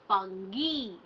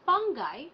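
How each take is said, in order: First: The final vowel is a long ee sound. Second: The final vowel is not a long ee sound. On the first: The speaker calls it right. "actually how we pronounce this is fungi" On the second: The speaker calls it wrong. "The most people would pronounce this as fungi"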